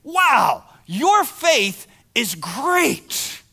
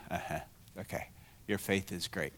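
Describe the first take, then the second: First: Amazed praise. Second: Flat unimpressed. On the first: Retold or imitated. What if Jesus said to you. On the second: Pretend. You're all sitting there.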